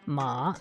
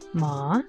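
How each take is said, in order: First: The pitch dips low, then comes back up. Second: The pitch rises from mid to high. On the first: "a third tone, which is kind of like a dipping tone" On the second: "the second tone, which is a rising tone"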